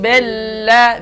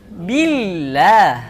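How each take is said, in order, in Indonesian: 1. Huruf vokal pertama berbunyi e. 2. Huruf vokal pertama berbunyi i. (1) "bukan e" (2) "I harus i"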